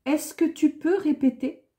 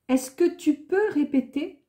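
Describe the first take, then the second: No difference in how they are said.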